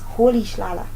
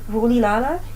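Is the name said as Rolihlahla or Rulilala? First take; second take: Rolihlahla; Rulilala. First: The name sounds like Rolihlahla, with hl sounds. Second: The name sounds like Rulilala, with plain l sounds. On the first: The speaker calls it right. "the correct way to say this name is Rolihlahla" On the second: The speaker calls it wrong. "You might think it's Rulilala and it's wrong"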